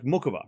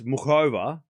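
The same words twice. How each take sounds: First: The name is said quickly and clipped. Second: The name is said slowly and carefully. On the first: "I have to quick it, like" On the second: "I know it's"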